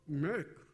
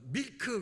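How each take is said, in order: First: The word ends clipped, sounding like 'mee-yuk'. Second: The word ends with an added 'keu' vowel. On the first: A native listener understands it. The speaker calls it right. "미역할 때 하는 그걸로다가 발음을 해줘야" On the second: A native listener does not understand it. The speaker calls it wrong. "그냥 어, 밀크 그러면 못 알아들어요"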